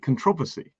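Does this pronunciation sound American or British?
British. It is said with a British pronunciation. "but we can say controversy"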